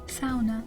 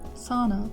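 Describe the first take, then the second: First: Sauna is said in an Upper Peninsula accent. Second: Sauna is said in a standard American accent. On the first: This is how locals of the region say it. "they would say sauna" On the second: This is how most Americans say it. "I would say sauna"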